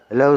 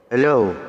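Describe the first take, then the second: First: The voice sounds like a robot. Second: The voice sounds choked and sputtering. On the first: "Para robot yung boses" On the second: "Parang ano, nasasamid"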